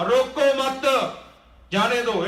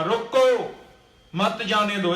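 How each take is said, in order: First: Slow, high ਰੋਕੋ ਮਤ, then ਜਾਣੇ ਦੋ; pause after ਮਤ. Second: ਰੋਕੋ alone, then ਮਤ ਜਾਣੇ ਦੋ together; pause after ਰੋਕੋ. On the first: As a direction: join ਰੋਕੋ ਮਤ, break before ਜਾਣੇ ਦੋ. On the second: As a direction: break right after ਰੋਕੋ, before ਮਤ. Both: Shown as a demonstration. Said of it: "ਵਿਸਰਾਮ ਅੱਗੇ ਕਰਕੇ ਲਾ ਦਈਏ".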